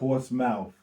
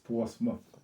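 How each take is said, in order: First: The ending is said as a full 'mouth'. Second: The ending is reduced to a short 'muth'. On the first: The speaker calls it wrong. "not Portsmouth" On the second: The speaker calls it right. "It's Portsmouth"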